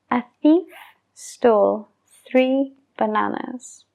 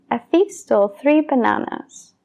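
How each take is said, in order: First: It is said at a normal pace. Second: It is said quickly.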